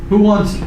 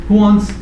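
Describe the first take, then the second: The two takes are said the same way.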